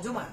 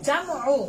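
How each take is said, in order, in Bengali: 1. প্রথম স্বরধ্বনিটি একটি গোলাকার 'u' ধ্বনি। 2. প্রথম স্বরধ্বনিটি একটি খোলা 'a' ধ্বনি। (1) "প্রথমে আমরা ভুল বলি সবাই বলি জুমা" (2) "আসল উচ্চারণ হবে কি জামু"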